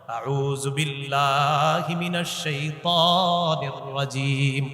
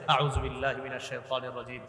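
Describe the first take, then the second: First: It is said at a normal, full volume. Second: It is said softly and gently, under the breath.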